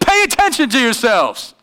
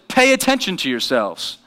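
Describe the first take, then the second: First: It is said forcefully, with emphasis. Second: It is said calmly, without force.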